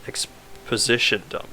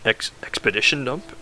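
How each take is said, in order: First: "exposition dump" said slowly and softly as the fix; corrected word. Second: "expedition dump" said hesitantly, unsure, as a slip; wrong word. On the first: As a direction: correct it to "exposition", slow and quiet. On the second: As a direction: stumble over "expedition" with a questioning rise. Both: Shown as a demonstration.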